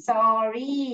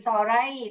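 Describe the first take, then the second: First: The word ends with an 'ee' sound. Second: The word ends with an 'eye' sound. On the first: The speaker calls it right. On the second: The speaker calls it wrong.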